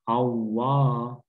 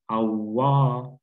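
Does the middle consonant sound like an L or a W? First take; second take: W; W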